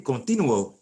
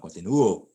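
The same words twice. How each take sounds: First: Continuo said wrongly as con-TI-nuo; stress on TI. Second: Continuo as con-ti-NU-o, with NU punched; stress on the u. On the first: Teacher showing the word without its accent mark, stress on TI. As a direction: hit TI in continuo and slide over the u. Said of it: "If you didn't have an accent mark there". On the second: Teacher giving the form they want, stressed u. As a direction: land hard on the NU of continuo. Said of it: "They want continuo". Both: Shown as a demonstration.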